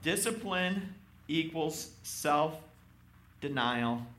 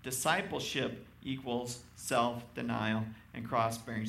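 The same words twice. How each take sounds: First: Slow, weighty, every word stressed; slow emphatic. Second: Said in the usual way. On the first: Shown as a demonstration. Preacher to congregation, slow emphatic. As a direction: lay down Discipline equals self-denial slowly, word by word. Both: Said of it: "he gets more emphatic as he reads that".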